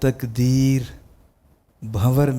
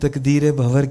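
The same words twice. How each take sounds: First: A pause separates the two words. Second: The two words run together without a break. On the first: The words belong to two separate phrases. The speaker calls it right. "तकदीर अलग है। और भंवर जो है वो आपको अलग।" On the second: The words are wrongly read as one phrase. The speaker calls it wrong. "आपने तकदीर भंवर कह दिया। ऐसे ही कुछ कहा आपने"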